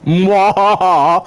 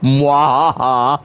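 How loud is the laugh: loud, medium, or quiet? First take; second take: medium; quiet. First: It is said with more energy and force. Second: It is said quietly with little energy.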